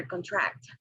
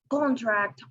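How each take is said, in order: First: "contract" stressed on TRACT; stress on second syllable. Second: "contract" stressed on CON; stress on first syllable. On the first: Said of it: "or in the second". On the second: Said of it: "whether the stress is on the first". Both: Shown as a demonstration.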